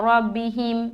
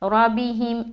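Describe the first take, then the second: Both takes have the same delivery.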